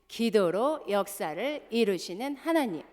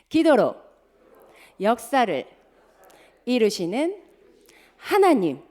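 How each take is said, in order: First: It is said fast. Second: It is said at a normal pace.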